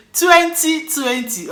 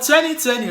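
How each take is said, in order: First: Nigerian accent. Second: Crisp American twenty twenty, clear t sounds; American accent. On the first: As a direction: say twenty twenty the Nigerian way, dropping the middle t. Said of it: "But in Nigerian accent". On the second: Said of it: "Let me speak in American accent". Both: Shown as a demonstration.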